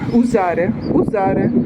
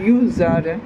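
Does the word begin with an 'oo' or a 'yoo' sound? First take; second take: oo; yoo. First: The word begins with a plain 'oo' sound. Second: The word begins with a 'yoo' sound. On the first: The speaker calls it right. "це «узаре» я не вимовляю правильно" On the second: The speaker calls it wrong. "Я вимовляю «юзаре»"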